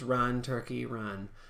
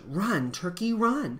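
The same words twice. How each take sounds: First: The words are said in a flat voice. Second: The words are said in an expressive voice. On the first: The speaker calls it wrong. "So that's not just run, turkey, run" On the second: The speaker calls it right. "it has to have some sort of expression"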